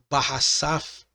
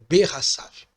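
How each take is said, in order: First: The first vowel is a full open 'a'. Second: The first vowel is a short reduced 'e'. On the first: The speaker calls it wrong. "Em vez de ser barraçaf" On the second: The speaker calls it right. "ela é reduzida aqui então a ser berraçaf"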